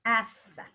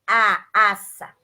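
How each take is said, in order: First: Said in the usual way. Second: Teacher tells her class to draw out aça slowly; slow spelled-out aça. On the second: Shown as a demonstration. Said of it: "A S S".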